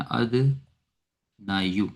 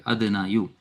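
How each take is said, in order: First: "अदना यू" said very slowly, every syllable stretched; pattern form drawn out. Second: Said in the usual way. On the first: Shown as a demonstration. ("अदना यू" को बहुत धीरे खींचकर बोलें) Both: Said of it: "अगर हम pattern पे रखें तो अदना यू".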